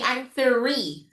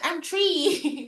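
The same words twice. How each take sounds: First: Three starts with a soft th sound. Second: Three starts with a plain t sound. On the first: The speaker calls it right. "it's supposed to be" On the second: The speaker calls it wrong. "Sabi ng bata"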